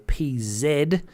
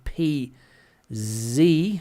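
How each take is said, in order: First: The letter Z is said as 'zed'. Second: The letter Z is said as 'zee'.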